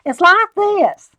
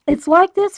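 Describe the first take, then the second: First: Put-on a quick higher, slower stab at a Southern accent. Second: Said in the usual way. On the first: Trying out the little man's line in a Southern accent. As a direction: tries a hammed-up Southern drawl on the line, then drops it. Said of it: "maybe I should do that in a Southern accent". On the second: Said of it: "No, I won't do that to you guys".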